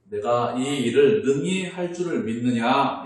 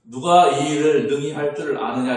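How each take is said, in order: First: Jesus's question, slow and weighty; a preacher voicing Jesus, slow and solemn. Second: A louder, booming version of the question; a preacher's loud challenge to the room; loud preaching question. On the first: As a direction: ask it slowly, with gravity. Jesus asks the blind men. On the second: Acted. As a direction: throw the question out to the congregation. Rephrased question, much louder.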